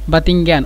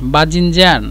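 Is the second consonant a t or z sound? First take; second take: t; z. First: The second consonant is a t sound. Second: The second consonant is a z sound. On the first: This is a regional form of the word. "অনেক মানুষ বাতিঙ্গান বলে" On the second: This is the standard form of the word. "এটা হলো বেগুন"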